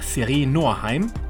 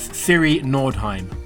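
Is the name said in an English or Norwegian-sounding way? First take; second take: Norwegian; English. First: The name is said with Norwegian-style sounds. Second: The name is said with plain English sounds.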